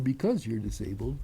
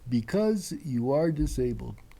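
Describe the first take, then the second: First: "You are" is contracted to "you're." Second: "You are" is said as two full words. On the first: The speaker calls it right. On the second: The speaker calls it wrong.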